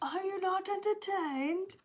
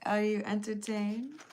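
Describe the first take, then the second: First: It is said as a dramatic Gladiator impression. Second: It is said in a plain, casual voice.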